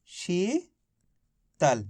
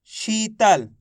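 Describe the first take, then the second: First: Sheetal as rising शी, long pause, soft low तल; syllable split. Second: Sheetal joined, with a long शी; sounding out. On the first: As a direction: read Sheetal very slowly in two separated parts. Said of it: "तो मिलके बन गया". (शीतल को शी और तल में तोड़कर, रुककर) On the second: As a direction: sound out Sheetal, holding the first vowel. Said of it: "किसका उच्चारण निकल रहा है?". (शीतल, शी को खींचकर) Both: Shown as a demonstration.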